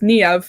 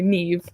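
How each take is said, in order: First: The name is said the Irish way. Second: The name is said the UK way. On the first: "the Irish say it as Niev and stress the A" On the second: "here in the in the U K we just say Neve"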